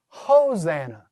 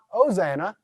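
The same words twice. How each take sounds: First: The word starts with an h sound. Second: The word starts with a vowel, no h. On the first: The speaker calls it right. "It's going to be a rough breather" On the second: The speaker calls it wrong. "so not Hosanna"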